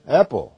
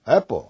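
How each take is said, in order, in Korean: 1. 영어 발음으로 발음됩니다. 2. 영어 발음으로 발음됩니다.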